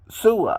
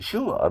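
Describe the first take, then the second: First: The name begins with a plain s sound. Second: The name begins with an sh sound. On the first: "if it's the double S, right? Is and this is how you would do it" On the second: "It's an S H sound"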